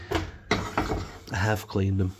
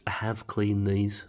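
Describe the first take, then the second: First: "have" leaned on, slow and insistent; slow, defensive "I have cleaned them" with weight on "have"; stress on have. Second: Said in the usual way. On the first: Real, not acted. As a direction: hit "have" to insist it's true. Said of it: "I promise". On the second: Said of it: "I have cleaned them, I promise".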